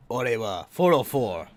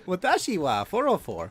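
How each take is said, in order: First: Slow, bold macho delivery; Chad voice. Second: Higher, polite ordinary delivery; normie voice. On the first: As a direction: say it like a confident Chad. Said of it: "you say it like a Chad". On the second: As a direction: say it like an average guy. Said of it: "If you wanna say it like a normie". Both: Shown as a demonstration.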